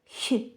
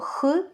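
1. М'який, шиплячий звук, що вимовляється близько до піднебіння. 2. Твердий, грубий звук, що вимовляється в глибині горла. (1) "м'яке «х»" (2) "тверде «х»"

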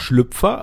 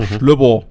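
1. Es wird in standarddeutscher Aussprache gesagt. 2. Es wird in alpenländischer Aussprache gesagt. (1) "also das Hochdeutsch ausgesprochene" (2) "wenn es denn so richtig in die Berge geht"

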